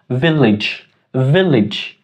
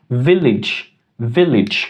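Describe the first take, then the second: Both takes have the same delivery.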